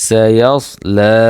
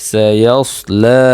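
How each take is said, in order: The two takes are said the same way.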